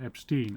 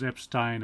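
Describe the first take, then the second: First: The name is said the American way. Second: The name is said the non-American way. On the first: The speaker calls it wrong. "not Epstein ... that's how Americans would pronounce it" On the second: The speaker calls it right. "it was Epstein"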